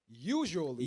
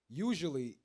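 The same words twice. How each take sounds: First: The word is read with strong emphasis. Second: The word is read plainly, without emphasis.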